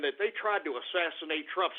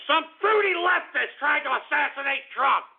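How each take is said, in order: First: Said in the usual way. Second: High-pitched ranting yell; indignant raised voice; outraged. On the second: Real, not acted. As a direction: burst out in outrage, pitch jumping up. Still upset, repeats it in outrage.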